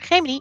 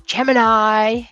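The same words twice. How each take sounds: First: Gemini is said with the Latin pronunciation. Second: Gemini is said with the English pronunciation. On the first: "I prefer Gemini" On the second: "I know Gemini"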